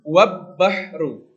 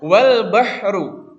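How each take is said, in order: First: The L merges into a doubled B sound. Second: The L is clearly pronounced before the B. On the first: The speaker calls it wrong. "bukan wab bahru" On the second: The speaker calls it right. "Lamnya itu dibaca"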